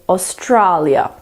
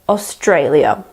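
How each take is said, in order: First: The second A is not the 'day' vowel. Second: The second A sounds like 'day' vowel. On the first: The speaker calls it wrong. "lots of people pronounce the second A as an A" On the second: The speaker calls it right. "the second A is just like the A in day"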